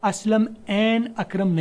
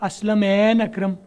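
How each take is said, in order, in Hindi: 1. शब्द छोटे विरामों से अलग-अलग किए जाते हैं। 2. शब्द बिना किसी विराम के एक साथ जुड़कर बोले जाते हैं। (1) "असलम एन अकरम नहीं करेंगे" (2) "असलम एन अकरम करेंगे"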